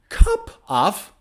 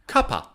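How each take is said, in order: First: Both words are said fully and separately. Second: The two words blend into one reduced word.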